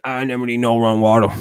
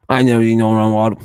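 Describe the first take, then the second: First: A light hillbilly imitation of the line; mock Appalachian accent. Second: Louder, more put-on Appalachian accent on the same line; mock Appalachian accent. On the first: Quoting hill people from a video, in a light Appalachian accent. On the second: Quoting hill people from a video again, in a stronger Appalachian accent. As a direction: push the hillbilly accent harder and louder. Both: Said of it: "Actual dialogue from a video".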